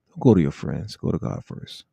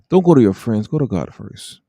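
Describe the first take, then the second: First: It is said quietly in a low voice. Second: It is said louder, with more volume.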